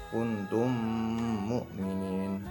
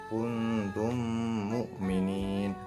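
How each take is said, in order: Both takes have the same delivery.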